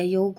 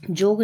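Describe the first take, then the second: First: Said in the usual way. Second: जोग starting with j, not y; wrong pronunciation. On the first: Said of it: "या योग होता है". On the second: Shown as a demonstration. Teacher rejecting a mistake, जोग said with initial j. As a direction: open जोग on a hard "jo". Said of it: "नहीं होता है".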